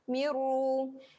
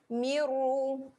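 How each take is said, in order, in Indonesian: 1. Bunyi n menyatu sepenuhnya menjadi r yang dobel. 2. Bunyi n menyatu sepenuhnya menjadi r yang dobel.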